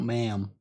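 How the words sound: It sounds like ma'am, an American accent.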